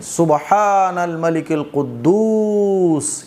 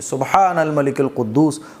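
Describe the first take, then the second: First: The final word is stretched out at the end. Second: The final word is said short, without stretching.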